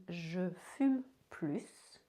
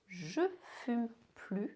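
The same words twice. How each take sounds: First: "plus" said as "plus" with a clear S, slowly; slow "je fume plus", hissing the final S; S pronounced. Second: "plus" said as "plu", no S; "je fume plus" ending on a bare "plu"; silent S. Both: Shown as a demonstration. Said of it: "understand between".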